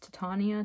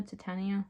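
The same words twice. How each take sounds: First: Titania said "tuh-TAH-nee-uh"; long "ah" in the middle of Titania; alternative pronunciation. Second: Titania said "tuh-TAN-ee-uh"; short "a" as in "tan" in Titania; alternative pronunciation. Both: Shown as a demonstration. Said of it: "how this is pronounced".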